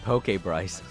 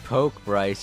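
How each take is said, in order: First: The first word is two syllables, like Pokémon. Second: The first word is one syllable, like jab. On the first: A Pokémon-style name. The speaker calls it right. "you meant poke Bryce ... Pokemon Bryce Edition" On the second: Jab the person. The speaker calls it wrong. "You didn't mean poke Bryce"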